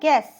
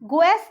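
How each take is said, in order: First: No u sound follows the g. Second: A u sound follows the g. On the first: The speaker calls it right. "वो होता है गैस" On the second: The speaker calls it wrong. "गुएस नहीं होता है"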